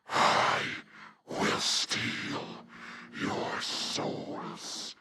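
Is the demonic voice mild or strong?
strong. It is said in a strongly demonic Nightmare voice.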